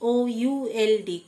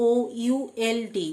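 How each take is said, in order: Both takes have the same delivery.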